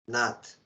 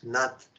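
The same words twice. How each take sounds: First: The t sound has a puff of breath. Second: The t sound is plain, without a puff of breath. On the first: It means lord. The speaker calls it right. "You have to say with H" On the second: It means dance. The speaker calls it wrong. "Nath without H, Nath is dance"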